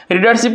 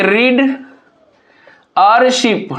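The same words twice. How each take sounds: First: Said in the usual way. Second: "रीड", a long pause, then "और शिप"; split into syllables. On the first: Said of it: "को किस तरह से तोड़ेंगे". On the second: Shown as a demonstration. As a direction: break the word apart after "रीड", as a teacher dividing syllables. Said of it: "readership को किस तरह से तोड़ेंगे".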